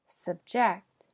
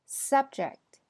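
First: Subject with weak first syllable, stress on JECT; verb stress. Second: Subject with SUB higher and louder; noun stress. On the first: Teacher models the verb, stress on JECT. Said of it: "后边是动词". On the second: Teacher models the noun, stress on SUB. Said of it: "前面是名词". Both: Shown as a demonstration.

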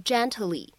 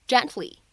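First: "gently" with an audible t burst before the l; over-pronounce the t in "gently"; "gently" as jen-tuh-lee, extra little vowel after t; fully released T. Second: "gently" with the t held, unreleased; "gently" as two syllables, no burst on the t; incomplete plosion. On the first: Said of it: "不需要读成gently". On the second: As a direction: stop the t in "gently" and slide into the l. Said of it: "存在一个不完全爆破". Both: Shown as a demonstration.

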